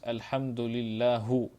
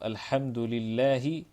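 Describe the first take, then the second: First: The word ends with a short 'u' vowel. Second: The word ends with a short 'i' vowel. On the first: The speaker calls it wrong. "he says Alhamdulillahu. Even this is a lahnun jali" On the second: The speaker calls it right. "in the place of Alhamdulillahi"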